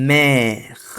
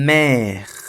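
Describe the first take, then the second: No difference in how they are said.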